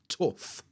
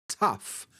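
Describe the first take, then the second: First: The vowel sounds like oh. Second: The vowel sounds like uh. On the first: "my accent, that uh becomes oh" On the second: "that says tough"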